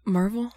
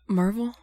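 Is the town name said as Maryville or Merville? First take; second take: Merville; Merville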